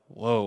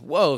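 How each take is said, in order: First: It sounds heavy and solemn, like a judgment. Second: It sounds startled and surprised.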